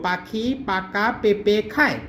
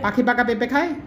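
First: The phrase is spoken at a slower pace. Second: The phrase is spoken at a quicker pace.

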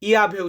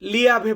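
First: The word begins with a Y sound. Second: The word begins with an L sound. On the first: The speaker calls it right. "এখানে ইয়াভে উচ্চারণ আসবে" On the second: The speaker calls it wrong. "লিয়াভে বলবেন না"

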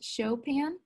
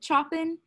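First: The name is not read as it looks. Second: The name is read the way it looks. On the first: The speaker calls it right. "it's actually pronounced Chopin" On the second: The speaker calls it wrong. "this looks like he would say it Chopin"

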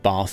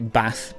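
First: The vowel is a long 'ah' sound. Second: The vowel is a short 'a' sound. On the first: "instead of bath and path" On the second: "will say bath"

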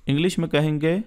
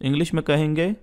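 No difference in how they are said.

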